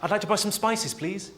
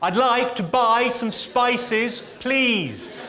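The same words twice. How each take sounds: First: It is said at normal, quieter volume. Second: It is said noticeably louder.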